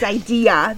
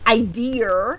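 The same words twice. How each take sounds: First: The word ends without an R sound. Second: An R sound is added at the end. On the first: The speaker calls it right. "It's idea. There's no R" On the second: The speaker calls it wrong. "a few pronunciations that I am not a fan of"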